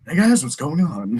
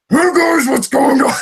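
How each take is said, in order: First: The voice is smooth, calm and clear. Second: The voice is strongly gruff and rough.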